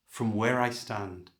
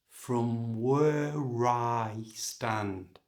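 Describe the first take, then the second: First: The phrase is said at normal, natural speed. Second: The phrase is said slowly and carefully. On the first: "And at normal speed" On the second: "So slowly it sounds like this"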